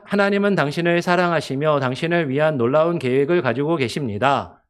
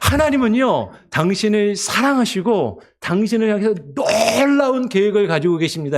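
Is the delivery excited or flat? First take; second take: flat; excited. First: It is read flatly, without feeling. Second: It is read with excitement and feeling. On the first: The listener loses interest and leaves. The speaker calls it wrong. "이렇게 읽으시면요. 듣는 사람이 아, 그러세요. 안녕히 가세요" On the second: The message is shared with heartfelt emotion. The speaker calls it right. "조금 익사이팅하게 ... 이렇게 약간 감정을 실어서"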